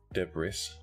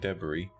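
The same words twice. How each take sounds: First: Said with the imitated, different pronunciation. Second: Said with the speaker's usual pronunciation. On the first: The speaker calls it wrong. "two words he kept saying wrong" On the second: The speaker calls it right. "he kept saying debris as debris"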